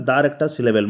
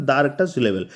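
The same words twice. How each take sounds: The two takes are said the same way.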